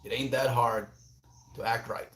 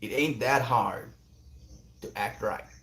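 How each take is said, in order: First: Said in the usual way. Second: Second-rate Texan impression, unhurried; attempted Texan accent. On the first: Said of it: "Uncle Becky's words come to my mind". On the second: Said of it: "Maybe that's closer".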